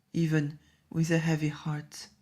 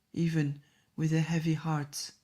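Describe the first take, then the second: No difference in how they are said.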